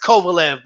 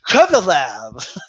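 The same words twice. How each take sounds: First: The name gets a plain American pronunciation. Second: The name gets a careful Russian-style pronunciation. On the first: This is how people around here actually say it. The speaker calls it right. "It's Kovalev, bro" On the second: Someone else insisted on saying it this way. The speaker calls it wrong. "to pronounce things the proper way"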